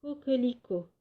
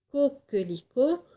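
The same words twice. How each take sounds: First: Said in the usual way. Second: Coquelicot as co... quelicot, raised pitch; first syllable isolated. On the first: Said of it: "moi, je vous propose". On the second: Shown as a demonstration. Teacher comparing first syllables, Coquelicot split after co. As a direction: set off the co of Coquelicot with a pause. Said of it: "commencent par la syllabe co".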